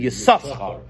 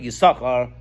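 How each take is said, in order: First: The name is said with two separate 's' sounds. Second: The name is said with a single 's' sound. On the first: It follows the spelling with both letters read. "read it with the two shins, it should be Yisachar" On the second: It follows the community's usual custom. "we pronounce it Yisachar"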